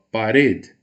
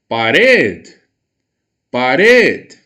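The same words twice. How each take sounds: First: Said in the usual way. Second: "Parede" called out loud, its final syllable long and forceful; stress on last syllable. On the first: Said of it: "é o mesmo caso da palavra parede". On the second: Shown as a demonstration. Teacher shows more force on one syllable, "Parede" shouted with its end stressed. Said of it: "eu emprego mais força, mais voz".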